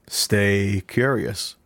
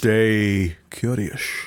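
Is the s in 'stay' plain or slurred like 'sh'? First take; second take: plain; sh. First: The s sounds are plain s sounds. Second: The s sounds are slurred into sh sounds. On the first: The speaker calls it wrong. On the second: The speaker calls it right.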